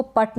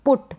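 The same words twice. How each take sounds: First: पट with unrounded 'uh' instead of 'oo'; wrong vowel demo. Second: पुट with short u, not 'uh'; short-u pronunciation. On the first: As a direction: say पट with an 'uh' vowel, rhyming with 'but'. (पट में उ की जगह अ का उच्चारण) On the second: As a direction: say पुट with a short rounded 'oo', as in 'foot'. (पुट में छोटे उ का उच्चारण) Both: Shown as a demonstration. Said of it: "इसको पट नहीं पढ़ेंगे".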